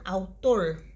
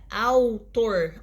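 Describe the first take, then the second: First: Said in the usual way. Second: "autor" slowly parted into au and tor; syllable by syllable. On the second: Shown as a demonstration. Teacher showing a diphthong in one syllable, syllable by syllable. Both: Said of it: "na mesma sílaba".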